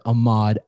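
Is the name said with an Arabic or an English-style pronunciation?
English-style. The name is said with an English-style pronunciation. "it rolled off the tongue easier like that"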